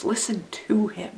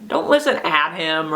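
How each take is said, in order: First: Soft line leaning on "to"; stress on TO. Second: "at" leaned on as the wrong word; stress on AT. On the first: Teacher contrasting listening to and at, stress on "to". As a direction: stretch and press the word "to". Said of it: "if we stress the second word". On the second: Teacher warning against merely hearing, stress on "at". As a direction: press on "at" to contrast it. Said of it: "It's about the communication between". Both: Shown as a demonstration.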